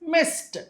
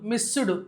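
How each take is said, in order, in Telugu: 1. చివరి శబ్దం చిన్న 't' శబ్దం. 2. చివరి శబ్దం 'd' + ఒక అచ్చు. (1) "తర్వాత రాసే డీని టాలాగా చదవాలి" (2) "అంతేగాని ఇలా చదవకూడదు, మిస్సుడు కిస్సుడు అలా కాదు"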